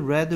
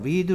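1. 모음은 짧은 'e' 소리입니다. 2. 모음은 긴 'ee' 소리입니다. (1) "스펠링은 똑같고 발음이 달라져요" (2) "읽다, read"

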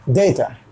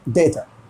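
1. पहला स्वर 'ay' जैसा बोला जाता है। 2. पहला स्वर 'ay' जैसा बोला जाता है।

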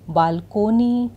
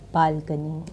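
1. बीच का स्वर पूरा 'oh' ध्वनि है। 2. बीच का स्वर हल्का 'uh' ध्वनि है। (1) "ज़्यादातर गलत प्रोनाउंस किया जाता है" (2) "सही तरीका है"

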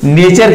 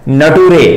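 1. अंत 'cher' की तरह बोला जाता है। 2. अंत 'too-ray' की तरह बोला जाता है। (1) "नेचर की जगह" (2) "उसने क्या बोल दिया, नटूरे"

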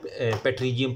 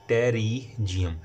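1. यह शब्द उच्चारित p से शुरू होता है। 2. यह शब्द t ध्वनि से शुरू होता है। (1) "कुछ लोग इसे ना पेट्रीजियम पढ़ रहे होते हैं" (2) "लेकिन असल लफ्ज़ है टेरिजियम"

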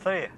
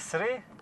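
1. Слово починається зі звуку tr. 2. Слово починається зі звуку sr. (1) "а три" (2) "Не сри"

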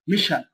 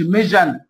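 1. الصامت في الوسط هو صوت sh. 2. الصامت في الوسط هو صوت j.

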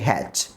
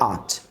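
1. শব্দটি h সহ পুরোপুরি উচ্চারণ করা হয়। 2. শব্দটি h বাদ দিয়ে সংক্ষেপে উচ্চারণ করা হয়। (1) "হ্যাড বাক্যের শুরুতে আসলে হ্যাড" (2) "যদি বাক্যের মাঝে আসে তাহলে তার উচ্চারণ করতে হবে আট"

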